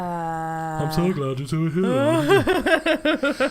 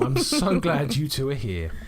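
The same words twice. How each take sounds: First: It is said in a put-on character voice. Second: It is said in the speaker's own voice.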